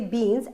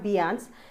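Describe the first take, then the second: First: The vowel sounds like the letter E. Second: The vowel sounds like the letter A. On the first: The speaker calls it right. "it takes the sound only of E" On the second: The speaker calls it wrong. "and not of A"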